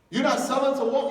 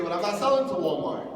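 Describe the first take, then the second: First: As if the refusal is absurd; incredulous echo. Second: Said in the usual way. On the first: Retold or imitated. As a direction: repeat it higher and louder in disbelief. Echoing the refusal in disbelief.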